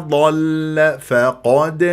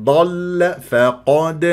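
The two takes are said the same way.

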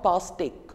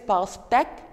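First: The accented vowel is said as a closed e. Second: The accented vowel is said as an open e. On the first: The speaker calls it wrong. "and not pastèque" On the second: The speaker calls it right. "it is pastèque"

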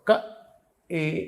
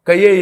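First: 'Ka' and 'e' are said without a 'y' glide. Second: A 'y' glide joins 'ka' and 'e'. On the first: The speaker calls it right. "ఇక్కడి నుంచి పలకాలి" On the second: The speaker calls it wrong. "ఆ ఏ అలా చదవకూడదు"

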